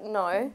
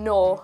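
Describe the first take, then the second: First: It is said with an Australian twang. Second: It is said in her usual non-Australian accent. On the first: "I do have a bit of a twang" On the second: "instead of saying no"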